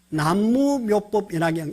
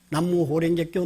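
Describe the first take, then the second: First: The phrase is read with Korean pronunciation. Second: The phrase is read with Japanese pronunciation.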